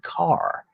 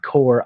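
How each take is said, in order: First: The name is one syllable with an 'ar' vowel. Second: The name is one syllable with an 'or' vowel. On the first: "I looked it up on the internet and it said Carr" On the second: "Someone else said Core"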